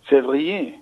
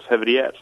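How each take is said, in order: First: The name is pronounced the French way. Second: The name is pronounced the Norwegian way. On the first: "Men hvis man ska säga si det på ordentlig fransk" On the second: "Hvis man ska säga si det på norsk"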